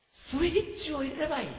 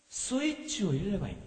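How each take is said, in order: First: 「スイッチを入れればいい」を高い声で柔らかく; 少し声を上げて念を押すように; 高めに言い直す. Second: Said in the usual way. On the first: Shown as a demonstration. (「スイッチを入れればいい」を高めの声で優しく繰り返す)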